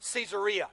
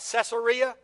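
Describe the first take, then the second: First: The name clearly contains the word 'Caesar'. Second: The name does not clearly contain 'Caesar'. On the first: The speaker calls it right. "because it's named after Caesar, better pronunciation is" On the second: The speaker calls it wrong. "I know a lot of you were raised like me where you pronounce it"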